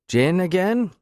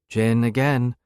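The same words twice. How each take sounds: First: Gin again rising high on again, a question. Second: Gin again falling flat on again, settled; flat confirmation. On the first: Bartender asks her usual order. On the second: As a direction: state Gin again with again dropping down. She confirms the order back. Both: Acted.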